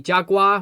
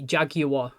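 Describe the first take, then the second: First: It is said with an American accent. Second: It is said with an English accent.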